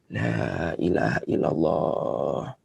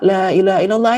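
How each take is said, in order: First: It is said slowly and gently. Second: It is said hurriedly, pushing the listener.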